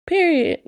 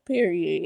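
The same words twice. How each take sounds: First: "Period" said alone, higher and falling hard; mock-stern "Period"; emphatic Period. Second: Said in the usual way. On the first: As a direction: land "Period" like a final verdict. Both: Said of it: "No, I'm just kidding".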